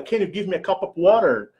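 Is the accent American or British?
American. It is said in an American accent.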